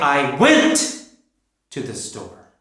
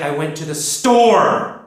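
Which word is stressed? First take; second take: went; store. First: The word went is stressed. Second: The word store is stressed.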